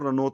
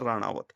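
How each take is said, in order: First: The name is said in two syllables. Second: The name is said in three syllables. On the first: The speaker calls it wrong. "तो वो रनौत बोल देते हैं उसको" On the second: The speaker calls it right. "जबकि असल उच्चारण है राणावत"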